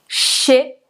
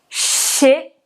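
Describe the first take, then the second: The two takes are said the same way.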